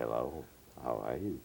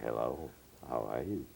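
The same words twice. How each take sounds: First: It is said in a sexy, seductive way. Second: It is said in a sexy, seductive way.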